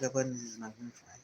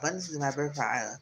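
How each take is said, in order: First: It is said quietly, holding back. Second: It is said loudly with strong conviction.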